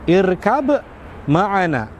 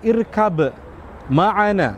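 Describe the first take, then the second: Both takes have the same delivery.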